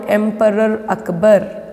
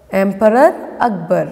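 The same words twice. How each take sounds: The two takes are said the same way.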